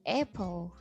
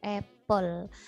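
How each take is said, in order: First: The p runs straight into l with no vowel. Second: A short vowel sound is heard between p and l. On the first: "apple without e" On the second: "apple dengan e"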